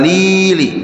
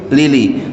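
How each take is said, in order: First: The vowel in 'li' is held long. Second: The vowel in 'li' is kept short. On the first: The speaker calls it wrong. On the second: The speaker calls it right. "li-nya jangan panjang"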